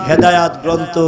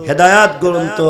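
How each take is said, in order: The two takes are said the same way.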